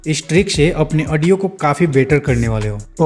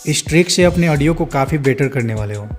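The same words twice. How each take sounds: First: It is said in a polished, professional way. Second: It is said naturally, like chatting with friends.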